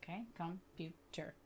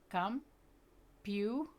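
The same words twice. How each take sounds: First: Said in the usual way. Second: "Computer" stretched very slow, syllable by syllable; syllables drawn out. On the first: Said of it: "blend those syllables back together". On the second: Shown as a demonstration. Teacher modelling syllables on her arm, very slow. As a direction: draw out each chunk of "Computer". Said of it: "you try it".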